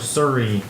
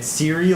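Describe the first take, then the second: First: The first syllable sounds like 'sir'. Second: The first syllable sounds like 'see'.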